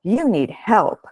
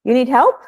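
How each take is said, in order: First: "You need help" said flat, falling like a statement; statement tune. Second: "You need help?" rising high at the end, a real question; question tune. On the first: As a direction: state it, don't ask. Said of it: "So you might say". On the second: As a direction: ask it, pitch climbing on "help". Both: Shown as a demonstration.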